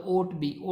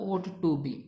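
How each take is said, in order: First: "ought be" with the "to" dropped; wrong way kids say it. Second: "ought to be" with the "to" clearly said; correct reading. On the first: Teacher showing students the wrong reading "ought be", dropping the to. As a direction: say "ought be" as the mistaken form. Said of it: "कुछ बच्चे ऐसे बोलते हैं ought be". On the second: Teacher correcting students to "ought to be", every word clear. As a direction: give the right form "ought to be". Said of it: "ought be नहीं होता". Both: Shown as a demonstration.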